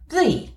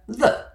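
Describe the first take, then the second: First: It is pronounced the way it sounds before vowels. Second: It is pronounced the way it sounds before consonants. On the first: "the, as in the apple" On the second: "the, as in the dog"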